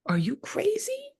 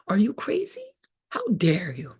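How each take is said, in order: First: Mock outrage, way up high and slow; hammed-up shocked squeak; shocked high squeal. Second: Whispered, half-crying disbelief; mock teary whisper; mock whimper. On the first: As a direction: squeal it in fake disbelief. Mock shocked reaction to newcomer. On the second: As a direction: fake a tearful gasp.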